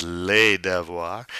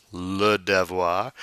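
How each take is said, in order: First: "les devoirs" with les as lay, silent s; plural article. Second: "le devoir" with le as luh; stretched luh in "le devoir"; singular article. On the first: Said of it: "versus les devoirs". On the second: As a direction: slowly stress the "le" in "le devoir". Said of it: "How you know the word is plural". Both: Shown as a demonstration.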